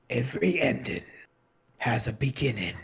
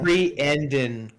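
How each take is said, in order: First: It is said in a put-on narrator voice. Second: It is said in a normal voice.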